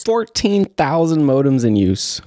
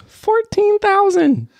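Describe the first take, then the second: First: Said in the usual way. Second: Drawn-out high disbelief; incredulous. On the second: Acted. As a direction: stretch it out, stunned and much higher.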